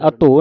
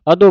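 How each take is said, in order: First: ਅਧੋ with Punjabi dh, close to a toned t; mistaken dhadda reading. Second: ਅਦੋ with a plain voiced d; ਅਦੋ with a dadda. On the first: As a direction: say ਅਧੋ with dh in place of d. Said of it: "ਅਧੋ ਨਹੀਂ ਕਹਿ ਦੇਣਾ". (ਅਧੋ ਵਿੱਚ ਧੱਧੇ ਦੀ ਆਵਾਜ਼) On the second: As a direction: say ਅਦੋ as "a-do", no breath on the d. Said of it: "ਅਦੋ ਬੋਲਣਾ". (ਅਦੋ ਵਿੱਚ ਦੱਦੇ ਦੀ ਸਾਫ਼ ਆਵਾਜ਼) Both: Shown as a demonstration.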